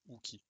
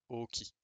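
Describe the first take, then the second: First: The name begins with an 'oo' sound. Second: The name begins with a long 'oh' sound. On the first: The speaker calls it wrong. "Et non pas du coup" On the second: The speaker calls it right. "ça se prononce O"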